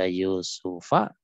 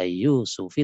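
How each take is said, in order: First: The name ends with an a vowel. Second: The name ends with an i vowel. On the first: "Tidak dibaca Yusufa" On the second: "tidak dibaca Yusufi"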